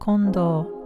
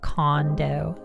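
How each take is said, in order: First: The name is said with Japanese pronunciation. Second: The name is said with English pronunciation. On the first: The speaker calls it right. "instead of" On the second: The speaker calls it wrong. "how people pronounce her last name like"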